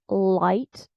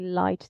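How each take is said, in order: First: The first L is dark and heavy. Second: The first L is clear and light. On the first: This is how American speakers say it. "with a dark all at the beginning" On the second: This is the pronunciation American speakers do not use. "They never say light"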